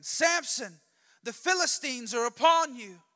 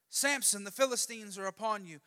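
First: Loud, high-pitched alarm shout; Delilah's yell. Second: Raised but less forceful call to wake him; milder warning call. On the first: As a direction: call out the warning at full force. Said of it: "Then she yells again". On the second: Same wake-up call, fourth time. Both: Acted.

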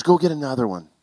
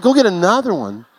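First: Said in the usual way. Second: Higher, louder disbelieving question; husband echoing his wife in disbelief; incredulous echo. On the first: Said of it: "She goes". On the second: Retold or imitated. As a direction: throw her words back in disbelief. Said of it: "I said".

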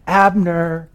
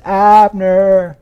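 First: High, drawn-out distant call. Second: Loud, high, long-held holler; echoing call. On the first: David crying out to the sleeping commander, a high call. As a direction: call across a valley without full force. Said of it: "begins to cry out to the commander". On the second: David rousing the commander across the wilderness, a loud echoing call. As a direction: holler so it rings over the wilderness. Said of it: "echoing over the wilderness". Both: Acted.

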